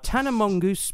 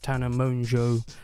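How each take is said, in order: First: The surname is garbled into a mongoose-like word. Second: The surname sounds like monjo with a faint n. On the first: The speaker calls it wrong. "I'm going to comedically mispronounce her name" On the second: The speaker calls it right. "I know Tana's name is pronounced Tana Monjo"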